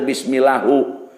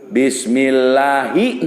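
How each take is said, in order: First: The word ends with a u vowel. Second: The word ends with an i vowel. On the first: The speaker calls it wrong. "teu bismillahu" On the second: The speaker calls it right. "dijeer bismillahi"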